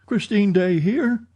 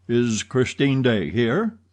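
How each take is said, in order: First: Christine Daae here asked much higher in disbelief; startled echo. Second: Said in the usual way. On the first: A narrator's reading. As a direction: echo the question back, high and amazed. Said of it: "echoed Richard".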